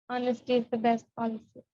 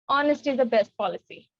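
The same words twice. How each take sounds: First: It is said in a sad tone. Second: It is said in an angry tone.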